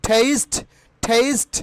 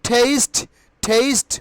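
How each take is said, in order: No difference in how they are said.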